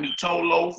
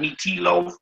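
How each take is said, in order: First: An 'oh' vowel is sounded after the t. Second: An 'ee' vowel is sounded after the t. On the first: "not meat toe loaf" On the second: "not meat tea loaf"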